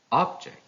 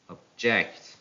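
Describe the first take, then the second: First: "object" as OB-ject, high start; stress on first syllable. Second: "object" as ob-JECT; stress on second syllable. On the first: Teacher reading a noun, "object" stressed on OB. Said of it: "stress on the first syllable". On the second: Teacher reading a verb, "object" stressed on JECT. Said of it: "stress falls on the second syllable". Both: Shown as a demonstration.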